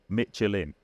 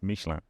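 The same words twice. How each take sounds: First: It is pronounced the English way. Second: It is pronounced the French way. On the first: The speaker calls it wrong. "in English, we would say Michelin" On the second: The speaker calls it right. "I actually do speak French, and I have lived in France, and it's Michelin"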